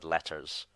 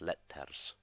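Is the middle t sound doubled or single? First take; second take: Single; Doubled. First: The middle t sound is short and single. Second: The middle t sound is held and doubled. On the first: "the English word letters" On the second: "if you were speaking it in Latin, would be pronounced letters"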